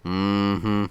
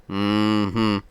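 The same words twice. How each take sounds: The two takes are said the same way.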